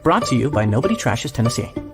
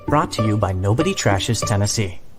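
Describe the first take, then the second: First: The ending is said in a rush. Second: The ending is said at an unhurried pace.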